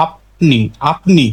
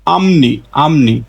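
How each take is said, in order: First: আপনি with a stopped p before n; pronounced as spelt. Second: আমনি slowly, with m before n; nasalised sound change. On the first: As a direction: close the lips on p in আপনি. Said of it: "এটা স্বাভাবিক উচ্চারণ হতো". (আপনি, ন-এর আগে স্পষ্ট প) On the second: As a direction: draw out আমনি with m instead of p. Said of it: "তাহলে এর সঠিক উচ্চারণ হবে". (ধীরে আমনি, প বদলে ম) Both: Shown as a demonstration.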